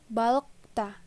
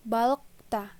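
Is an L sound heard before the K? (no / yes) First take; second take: yes; yes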